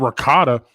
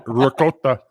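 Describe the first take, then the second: First: Said in the usual way. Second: Put-on "ricotta" as ri-KO-ta, with a light Italian accent; a mock-Italian "ricotta" like a chef would say it. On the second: Friend corrects himself, saying "ricotta" in a light Italian accent. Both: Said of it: "As Giotto would say".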